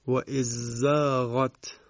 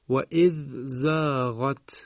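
First: The dh sound merges into the z. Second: The dh sound is kept separate.

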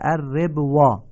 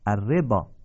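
First: A 'w' sound is read before the final vowel. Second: No 'w' sound is read before the final vowel. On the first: The speaker calls it wrong. "نوشته الربوا" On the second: The speaker calls it right. "ولی چی باید بخونید؟"

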